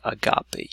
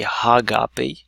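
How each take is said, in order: First: The word starts directly with the vowel. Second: The word starts with an h sound. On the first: The speaker calls it right. "you do not pronounce an H. You say agape" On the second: The speaker calls it wrong. "You don't say hagape"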